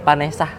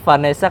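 First: The name begins with P and ends in H. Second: The name begins with an F or V sound. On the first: It is said the local Pamulang way. "kalau ke Pamulang jadi Vanessa. ... Pakai P. ... sama H belakangnya" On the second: The name is read properly. "Baca apa namanya bagus-bagus Vanessa"

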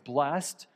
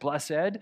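First: It is one syllable ending in a t sound. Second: It is two syllables with an added final syllable. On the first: "I say it the right way. It's blessed. So at the end, there's like a T for the ED" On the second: "So he adds the extra syllable to the end"

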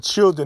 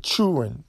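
First: The word is said crisply without drawing it out. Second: The word is drawn out with a dragged vowel. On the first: This is how people outside the South say it. "or they don't say children" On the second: This is how people in the South say it. "the south like to drag their words"

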